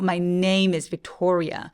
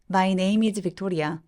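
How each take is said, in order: First: The stress is made by pushing louder forward. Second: The stress is made without added loudness. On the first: The speaker calls it right. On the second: The speaker calls it wrong.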